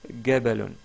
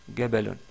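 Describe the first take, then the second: First: The word begins with a hard g sound. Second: The word begins with a hard g sound.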